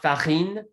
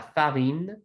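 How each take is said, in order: First: The r is pronounced strongly and harshly. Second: The r is pronounced softly and lightly. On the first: The speaker calls it wrong. "not farine" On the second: The speaker calls it right. "very frequently you're going to have a soft one"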